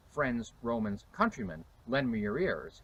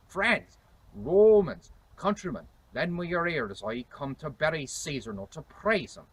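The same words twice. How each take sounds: First: Said in the usual way. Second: Declaimed higher in 1600s English accent; Shakespearean accent. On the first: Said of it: "So Shakespeare did not say". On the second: Shown as a demonstration. Historian demonstrating Shakespeare's famous speech, 1600s English accent. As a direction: proclaim it in reconstructed Elizabethan pronunciation. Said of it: "He said".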